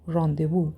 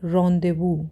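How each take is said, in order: No difference in how they are said.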